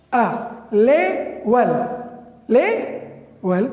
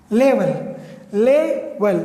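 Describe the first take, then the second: First: لیول stretched very slowly, each vowel held; slow pronunciation. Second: Said in the usual way. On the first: Shown as a demonstration. Teacher showing the class the two vowels in لیول, slowly. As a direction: draw out لیول to show both e sounds. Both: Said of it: "دو مختلف آوازیں".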